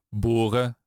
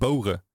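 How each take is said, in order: First: The first vowel stays steady without a glide. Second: The first vowel glides as a diphthong. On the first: This is how the speaker says it before r. The speaker calls it right. "Die O-klank die ik bij lopen heb, die gebruik ik niet voor een R" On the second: This is a form the speaker does not use. The speaker calls it wrong. "Ik zeg niet boren"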